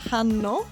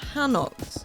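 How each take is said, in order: First: It is said with a Korean-like accent. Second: It is said with a strongly English accent. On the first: The speaker calls it right. "the actual pronunciation is probably more like" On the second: The speaker calls it wrong. "I'm gonna pronounce this incredibly Englishly"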